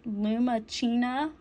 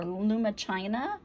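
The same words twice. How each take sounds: First: Lumachina with "chee-na" at the end; unsure pronunciation. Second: Lumachina with "china" at the end; alternative pronunciation. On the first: Crafter trying out the chain's name, Lumachina said "luma-CHEE-na". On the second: Crafter offering another reading of the chain's name, Lumachina said "luma-CHY-na". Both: Shown as a demonstration. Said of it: "I don't know how to pronounce that".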